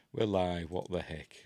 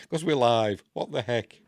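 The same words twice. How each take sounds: First: Said in the usual way. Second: Hammed-up "we're live" in a put-on voice; mock alarm. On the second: Joking to viewers about being live, mock alarm. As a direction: fake panic, louder and playful.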